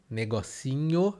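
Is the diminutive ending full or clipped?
full. The full diminutive ending is pronounced. "um negócio pequeno, negocinho"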